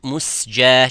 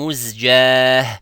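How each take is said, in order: First: The second consonant is an s sound. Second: The second consonant is a z sound. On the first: The speaker calls it wrong. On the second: The speaker calls it right.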